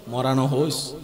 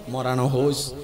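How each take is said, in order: Both takes have the same delivery.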